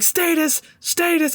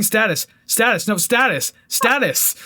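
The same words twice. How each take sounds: First: High-pitched "Status" said STAY-tus; "Status" as STAY-tus, pitched up like the song's echo; echoed song pronunciation. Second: "Status" insisted as STAT-us, pitched up; insistent "Status" with the vowel of "cat"; arguing short-A status. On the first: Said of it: "every time he's, there's, like". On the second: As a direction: correct the song, repeating "Status" with a short A. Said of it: "I was arguing with the song". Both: Retold or imitated.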